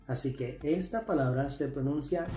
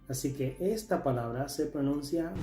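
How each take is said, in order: No difference in how they are said.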